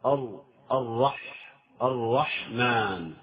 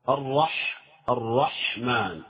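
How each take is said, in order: First: الرحمن said slowly, the ر passing without a lean; الرحمن with the ر passing lightly, no pause on it; quick light ra. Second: الرحمن slowed, the ح held a little longer; drawn-out الرحمن with the ح leaned on. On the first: Teacher shows students the ر passing quickly in الرحمن. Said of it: "تمر سريعة هكذا، يعني من غير اتكاءة". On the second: Teacher holds the ح in الرحمن so students hear the lean. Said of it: "فالحاء يحتاج إلى، إلى نوع اتكاءة". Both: Shown as a demonstration.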